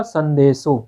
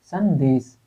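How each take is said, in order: First: संदेशों with the long nasal -ों ending marked; wrong form. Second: संदेश said plainly with a short final -श, no -ों ending; correct form. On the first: Teacher showing students the incorrect word, marked संदेशों. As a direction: point out the -ों ending of संदेशों as the mistake. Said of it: "गलती अशुद्ध क्या था". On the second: Teacher showing students the correct word, clear संदेश. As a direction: say संदेश cleanly, without the nasal -ों. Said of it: "संदेशों ना हो करके केवल संदेश होना चाहिए". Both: Shown as a demonstration.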